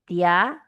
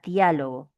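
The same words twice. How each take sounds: First: "Diálogo" split into dia, lo, go with long pauses; syllable by syllable. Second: Said in the usual way. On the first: Shown as a demonstration. Teacher breaking a word down for students, "Diálogo" syllable by syllable.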